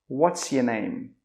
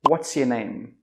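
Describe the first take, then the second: First: It is said quickly, with 'your' reduced. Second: It is said quickly, with 'your' reduced.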